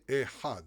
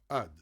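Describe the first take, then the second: First: A throaty h sound comes before the final vowel. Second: The throaty h sound is dropped entirely. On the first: "They don't say Ehad" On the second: "they say Ad. Why? Because they're skipping the Het"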